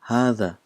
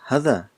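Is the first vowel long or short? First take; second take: long; short. First: The first vowel is long. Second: The first vowel is short. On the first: This is how the word is actually pronounced. "but we pronounce this as" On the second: This is how the word is written. "it's a short sound. It's not a long sound"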